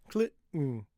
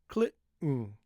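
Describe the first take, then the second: Both takes have the same delivery.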